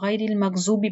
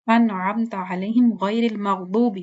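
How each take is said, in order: First: "المغضوب" as maghzoob with z; common mistake. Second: "المغضوب" with heavy d-like daad; correct recitation. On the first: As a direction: buzz a z in "المغضوب". ("المغضوب" زا کی آواز سے) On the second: ("المغضوب" موٹے ضاد سے) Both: Shown as a demonstration. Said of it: "ہم لوگ غیر المغضوب پڑھتے ہیں".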